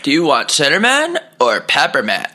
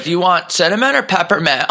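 First: Repeating the clerk. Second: High squeaky clerk question; dolphin-like squeak. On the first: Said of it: "He goes". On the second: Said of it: "sounded like a dolphin towards the end". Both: Retold or imitated.

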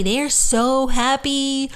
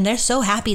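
First: Slow, higher and dreamy, drawing out so happy; dreamy blissful. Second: Said in the usual way. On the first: Retold or imitated. Voicing souls who crossed over, slow dreamy bliss. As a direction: float the words out in bliss. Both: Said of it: "repeated slow".

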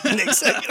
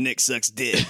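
First: High, breaking into laughter; repeating the ghost's insult while laughing, higher. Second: Said in the usual way. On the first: Retold or imitated.

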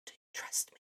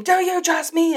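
First: Soft unvoiced whisper. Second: High, loud shouted question; mock scream. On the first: God sitting next to the speaker, soft whisper. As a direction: whisper it gently, right beside them. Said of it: "he whispers and he says". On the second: God shaking the speaker awake, loud mock scream. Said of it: "conk me over the head and scream".

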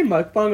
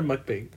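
First: "mukbang" ending in an open "bahng"; second syllable of "mukbang" as "bahng". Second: "mukbang" ending like English "bang"; second syllable of "mukbang" with the vowel of "cat"; mukbang with short A. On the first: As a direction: say "mukbang" to rhyme with "bong". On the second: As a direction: say "mukbang" to rhyme with "sang". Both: Shown as a demonstration. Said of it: "Do you say mukbang or mukbang".

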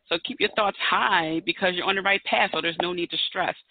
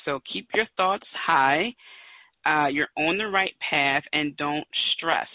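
First: Said in the usual way. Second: Slowed, word by word; slow list of the number's meanings; slow reading of meanings. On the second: Shown as a demonstration. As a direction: spell out each meaning slowly. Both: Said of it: "Put it in a sentence".

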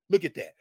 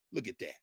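First: Said in the usual way. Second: Low, soft murmur; quiet marvel. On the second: Real, not acted. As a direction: say it low, almost to yourself. Repeats remark, soft then firm.

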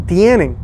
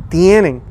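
No difference in how they are said.

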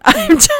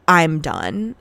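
First: High, loud squeal of laughter; words squeaked out through a laugh; laughing repeat. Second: Said in the usual way. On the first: Real, not acted. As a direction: crack up while saying it.

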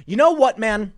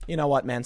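First: Much higher and louder, fed up; exasperated outburst. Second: Said in the usual way. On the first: Real, not acted. Commentator reacting to the governor's statement, loud exasperated outburst. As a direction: throw it out in exasperation.

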